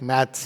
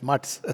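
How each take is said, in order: First: The word is said with the vowel of 'math'. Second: The word is said with the vowel of 'mutt'. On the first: The speaker calls it wrong. "in English it reads like maths, but it's not maths" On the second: The speaker calls it right. "it's mutts"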